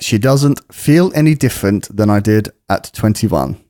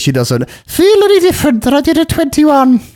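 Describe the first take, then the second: First: It is read in the speaker's normal voice. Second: It is read in a put-on character voice. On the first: The speaker calls it wrong. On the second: The speaker calls it right.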